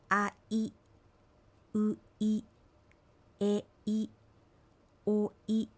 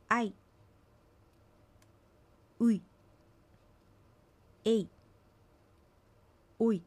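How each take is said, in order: First: "あい" as two separate vowels, a gap before い; vowels split apart. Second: "あい" as one gliding syllable, no break; vowels joined. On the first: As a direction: break "おい" into two beats. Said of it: "区切って発音しないように". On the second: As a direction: glide straight into い, as in "おい". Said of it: "区切って発音しないように注意して". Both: Shown as a demonstration.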